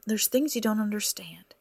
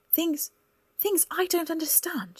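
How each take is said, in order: First: Said in the usual way. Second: High, incredulous repeat of things; incredulous echo. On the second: Acted. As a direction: throw his word things back at him, much higher. Cora echoes his words incredulously.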